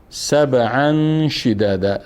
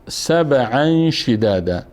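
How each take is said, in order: Both takes have the same delivery.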